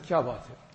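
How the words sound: It sounds gentle and caring. Asking a distressed person what is wrong. "he's worried, he's some distress. So I asked him, what's wrong, bhai?"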